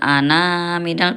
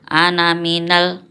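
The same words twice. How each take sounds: First: The final vowel of ana is drawn out long. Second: The final vowel of ana is kept short. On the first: The speaker calls it wrong. "bukan ana minal" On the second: The speaker calls it right. "nanya dibaca pendek ketika dibaca wasol"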